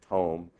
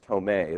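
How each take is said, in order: First: The name ends without an added 'ay' vowel. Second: The name ends with an added 'ay' vowel. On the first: This is a less common alternative. "or Tome" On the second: This is the common way people say it. "I guess it's pronounced Tomei, that's how everyone pronounces it"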